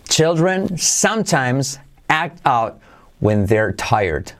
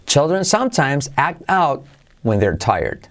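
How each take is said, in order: First: Very slow, word by word; slow model sentence. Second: Said in the usual way. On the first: Shown as a demonstration. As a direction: say it slowly for learners to repeat. (despacio, palabra por palabra) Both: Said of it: "Velocidad normal".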